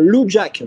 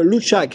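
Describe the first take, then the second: First: The second syllable begins with a 'j' sound. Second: The second syllable begins with a 'ch' sound. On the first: The speaker calls it right. "Le verbe connaître en thaïlandais c'est euh" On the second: The speaker calls it wrong. "ça fait treize ans que je le dis mal"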